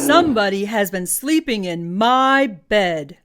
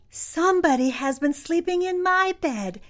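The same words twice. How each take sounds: First: It is said in a deep, booming voice. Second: It is said in a small, high voice. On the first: "In his great big voice he boomed" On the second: "said Baby Bear in his loudest little voice"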